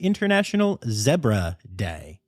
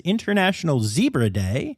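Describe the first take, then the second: First: It is said in an English-style accent. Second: It is said in a plain American accent.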